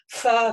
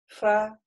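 First: The f has a heavy rush of air. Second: The f has a light, gentle contact. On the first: The speaker calls it wrong. "должно быть умеренно вот этот гамс воздух, да, то есть не надо фа" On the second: The speaker calls it right. "То есть у нас легкое"

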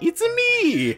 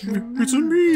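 First: It is said at a normal, higher pitch. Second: It is said at a much lower pitch.

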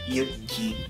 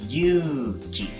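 First: The first vowel is short. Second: The first vowel is long. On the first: It is a girl's name. "for girl name, Yuki is just Yuki, two syllables" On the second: It is a man's name meaning brave. "But for man, that's long tone"

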